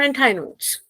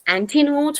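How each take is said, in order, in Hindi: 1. उपसर्ग का अंत 'eye' ध्वनि से होता है। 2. उपसर्ग का अंत 'ee' ध्वनि से होता है। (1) "कुछ लोग इसे एंटायर बोलते हैं" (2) "इट्स एंटी नोट्स"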